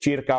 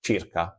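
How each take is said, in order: First: Circa with an Italian CH sound and rolled r. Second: Circa said as CHEER-ka with a rolled r; Italian circa. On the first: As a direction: say Circa as CHEER-ka. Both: Shown as a demonstration. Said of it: "we use the word circa".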